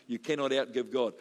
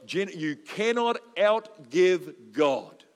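First: Said in the usual way. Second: Slow, louder, stressed cannot; emphatic key line. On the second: Shown as a demonstration. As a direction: land cannot outgive God slowly, leaning hard on cannot. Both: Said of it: "That's my line here today".

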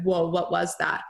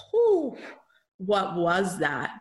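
First: Said in the usual way. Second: Blown away after the healing; stunned whew. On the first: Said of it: "and I was like". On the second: Retold or imitated. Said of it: "and I came out like".

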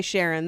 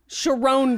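First: Sharon said like the name SHAIR-un; "Sharon" with a short e, like the first name. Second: "Sharon" said shuh-RONE, stress on the end; "Sharon" stressed on the second syllable, long o. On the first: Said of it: "if it's not pronounced Sharon, I don't care". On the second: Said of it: "it's pronounced Sharon". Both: Shown as a demonstration.

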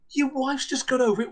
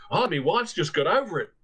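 First: Much higher, disbelieving repeat; incredulous echo. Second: Put-on weary Australian accent, lightly done. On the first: Retold or imitated. Landlady repeats the guest's words back, high and incredulous. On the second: Australian guest explains his wife's shock, light Australian accent. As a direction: say it like a shaken Australian husband. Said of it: "from the same Australian".

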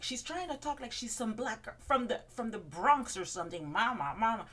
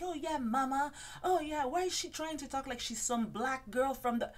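First: A lightly higher sassy put-on voice, louder on the mama; mock Ramona voice. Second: High, sassy put-on voice with an oh yeah; mock Ramona voice. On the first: Ramona mocking Bethany's Bronx talk, lightly put-on and sassy. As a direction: retell the jab again as the diva. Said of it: "but I think she went, like". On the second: Ramona mocking Bethany's talk to a friend at the bar, high and sassy. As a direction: sneer it like a gossiping diva. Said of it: "She's like".

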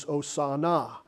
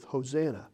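First: "Hosanna" as oh-sah-NAH; "Hosanna" with open ah vowels, oh-sah-NAH; original-word pronunciation. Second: "Hosanna" as ho-ZAN-uh; English-style "Hosanna", ho-ZAN-uh; anglicized pronunciation. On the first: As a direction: say "Hosanna" without the H, stressing the third syllable. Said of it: "they accented the second syllable instead of the third". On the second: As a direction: say "Hosanna" with an H, stressing the second syllable. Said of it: "accented the second syllable instead of the third". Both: Shown as a demonstration.

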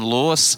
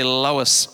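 First: Lois in a Scottish accent. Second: Said in the usual way. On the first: Shown as a demonstration. Preacher showing the congregation a Scottish Lois, Scottish accent. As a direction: say the name like a Scot. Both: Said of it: "Say it like a Scottish person".

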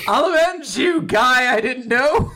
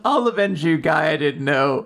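First: High, loud hammed-up battle cry; mock shout. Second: Said in the usual way. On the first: Mash shouting at the dead stranger, high and loud. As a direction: belt it out like a hero. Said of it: "Mash shouts out". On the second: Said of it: "repeat of the quote".

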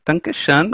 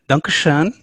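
First: "danke schön" said again in an English-speaking voice with a bit more lift, falling at the end; "danke schön" repeated a little higher, landing firmly on danke; poor German accent. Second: "danke schön" tried in a plain English-speaking voice, rising at the end; a light go at "danke schön" with a hint of German, lifting on schön; poor German accent. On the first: Host repeats his German thanks, still in a weak German accent. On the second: Host thanks German colleague with a weak German accent. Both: Shown as a demonstration. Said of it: "my poor German accent".

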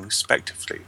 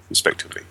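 First: Said in the usual way. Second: "respectively" whispered with no voice; whispered repeat of "respectively"; whispered aside. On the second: Shown as a demonstration. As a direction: breathe "respectively" like a private echo.

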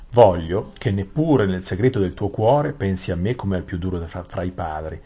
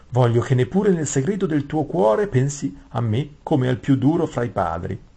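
First: King's voice. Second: Higher, lilting courtier's voice; wrong character's voice. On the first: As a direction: speak as the king, contained and even. (voce del re, misurata e più grave) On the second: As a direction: read it pitched up, like a fawning vizier. (voce acuta da cortigiano) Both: Acted. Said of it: "il re che sta parlando".

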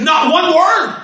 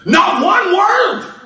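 First: "Not one word" shouted, higher, each word hit; emphasis on word. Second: "Not one word" drawn out slowly, higher, every word weighted; slow emphasis. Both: Shown as a demonstration. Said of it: "There was an emphasis".

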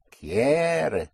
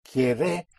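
First: Quiere with a long, high first syllable; QUIE-re, front-stressed. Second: Quiere with the last syllable lifted and stressed; quie-RE, stress at the end; wrongly stressed Quiere. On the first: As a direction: push down on "quie" and let "re" fall. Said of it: "where the present tense push is". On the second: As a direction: push up on the "-re" of Quiere. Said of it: "you will not be understood". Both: Shown as a demonstration.

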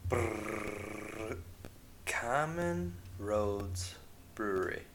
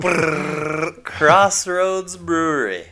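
First: Slow, quiet shivering brr intro; shiver, then say it slowly and softly. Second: Loud, high, slow shivering announcement; shiver, then belt out the brewery name. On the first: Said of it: "which brewery on tap this week". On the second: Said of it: "All right, retake". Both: Pretend.

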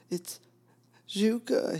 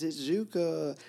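First: Cried out much higher and louder, voice breaking; a sudden cry, joy and pain cracking through. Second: Said in the usual way. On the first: Retold or imitated. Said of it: "he cried out suddenly, his voice cracked". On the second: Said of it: "He says".

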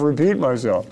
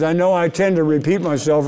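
First: Echoed repeat. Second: Said in the usual way. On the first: Shown as a demonstration. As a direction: repeat the phrase dropping off. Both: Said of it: "I tend to repeat myself, repeat myself".

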